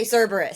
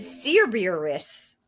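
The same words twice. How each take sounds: First: Cerberus said as "SUR-ber-us"; correct Cerberus. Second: Cerberus said as "SEER-beer-iss", drawn out; slow, wrong "seer-beer-iss" for Cerberus; mispronounced Cerberus. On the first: Shown as a demonstration. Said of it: "everybody knows how to say Cerberus". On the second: Retold or imitated. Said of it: "the way they said Cerberus was".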